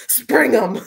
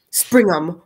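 First: Higher, louder hammed-up call; mock command. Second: Loud, short order; urgent command. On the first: Reader joking about getting in a carriage, hammed-up shout. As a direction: playfully holler it like a carriage passenger. Jokingly repeats the coachman order. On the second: A narrator's reading. Gentleman ordering his coachman away, loud command. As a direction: call it out to the driver.

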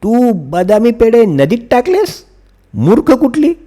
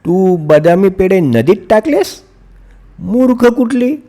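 First: Much higher, play-angry telling off; mother pretending to scold daughter; mock scolding. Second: Much higher, hammed-up telling off; fake-shout at her, half-joking; mother acting angry at daughter; pretend scolding. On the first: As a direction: scold her in pretend anger. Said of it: "आई नीलावर ओरडली". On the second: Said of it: "खोटं खोटं त्या नीलावर ओरडण्याचं नाटक केलं".

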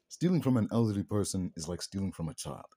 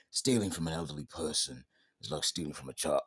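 First: Said in the usual way. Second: A light impression of a stern action star; Statham voice. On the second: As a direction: say it like a deadpan action hero, only lightly put on. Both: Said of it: "should I do the Statham voice?".

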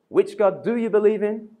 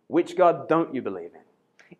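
First: "do" pushed out in a higher-pitched question; stress on DO. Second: "don't" leaned on, the question falling lower; stress on DON'T. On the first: Imagined Elijah challenging a believer, stress on "do". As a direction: hit the word "do", voice lifted. Contrasted questions, do against don't. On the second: Imagined Elijah challenging a believer, stress on "don't". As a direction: land hard on "don't", then drop. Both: Acted.

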